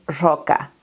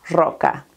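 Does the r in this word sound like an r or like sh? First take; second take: sh; sh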